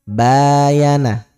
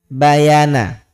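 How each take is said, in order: First: The first vowel is held long. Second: The first vowel is pronounced short. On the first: "Jadi ba ini panjang" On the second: "ini nggak ada tanda panjang, teman-teman. Jangan dipanjangkan"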